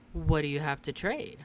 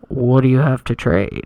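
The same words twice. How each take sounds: First: It is said in a normal reading voice. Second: It is said in a strange, eerie put-on voice.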